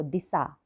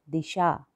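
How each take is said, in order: First: दिशा said as "disa" with plain s; दिशा with s instead of sh; wrong Hindi pronunciation. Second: दिशा said with a clear sh; दिशा ending in sha as in shalgam; correct Hindi pronunciation. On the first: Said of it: "अब कई बच्चे पढ़ेंगे इसको". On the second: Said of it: "ये होता है दिशा". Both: Shown as a demonstration.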